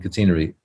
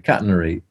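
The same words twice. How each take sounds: First: The word is said with British pronunciation. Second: The word is said with American pronunciation. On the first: "rather than catenary" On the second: "most American people also say catenary"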